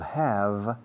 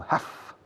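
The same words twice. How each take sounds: First: The word ends with a 'v' sound. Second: The word ends with an 'f' sound. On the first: "The pronunciation of have changes from have" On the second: "to have ... sonido de F"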